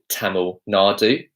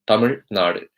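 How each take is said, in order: First: It is said with an anglicized pronunciation. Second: It is said with the native pronunciation. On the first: The speaker calls it wrong. "I would never say I'm from Tamil Nadu" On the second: The speaker calls it right. "the way it's supposed to be pronounced"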